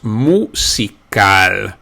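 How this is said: It is said with Spanish sounds.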